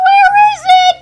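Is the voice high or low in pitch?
high. It is said in a high, loud voice.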